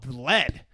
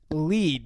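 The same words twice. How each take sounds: First: The vowel is short, rhyming with bed. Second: The vowel is long, rhyming with seed. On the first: The speaker calls it wrong. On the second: The speaker calls it right.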